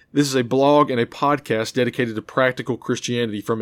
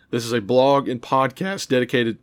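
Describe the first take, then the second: First: Said in the usual way. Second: A crack in the voice on dedicated. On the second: Real, not acted. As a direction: voice cracks mid-phrase. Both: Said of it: "ooh, my voice is cracked right there".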